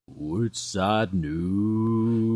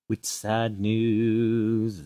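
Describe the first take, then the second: First: It is said in a deep voice. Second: It is said in a normal voice.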